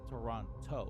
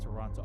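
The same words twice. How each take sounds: First: The last T is clearly pronounced. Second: The last T is dropped. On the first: The speaker calls it wrong. "You cannot pronounce the last T in the way that it's spelled. So you cannot say Toronto" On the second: The speaker calls it right. "You just say Toronto"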